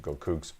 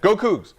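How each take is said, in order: First: It is said flatly, with little energy. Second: It is said loudly, with excitement.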